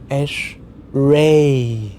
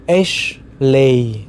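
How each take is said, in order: First: The second syllable starts with an R sound. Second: The second syllable starts with an L sound.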